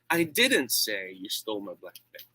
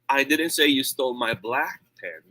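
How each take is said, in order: First: The stress is on the word 'say'. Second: The stress is on the word 'black'. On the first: It was conveyed some other way, not said. "That means uh, I did not do that. Maybe I wrote it" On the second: A pen of another color was taken. "It means maybe yung red ng ninakaw or kinuha"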